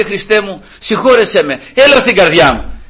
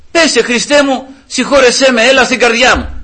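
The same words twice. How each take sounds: First: Raised hands, pleading prayer; father praying. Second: Raised, pleading high prayer; fervent prayer. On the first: Retold or imitated. Father in the car repeating the prayer, pleading. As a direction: plead to Christ with arms up. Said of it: "σηκώνει τα χέρια του και λέει". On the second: Shown as a demonstration. Son teaching his father a fervent prayer to Christ. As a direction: pray it out, begging. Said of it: "Τι να πεις".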